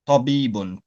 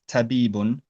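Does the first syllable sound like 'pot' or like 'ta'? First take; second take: pot; ta. First: The first syllable has a heavy, back 'pot' sound. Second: The first syllable has a light, front 'ta' sound. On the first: The speaker calls it right. "It's tabibun, pot" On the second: The speaker calls it wrong. "don't pronounce it as tabibun ... not ta"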